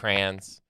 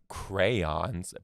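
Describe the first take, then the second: First: The y sound is dropped, in a regional accent. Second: The y sound in the middle is clearly pronounced. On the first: "that's when my Michigan accent comes out" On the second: "some people say crayons, pronounce the Y"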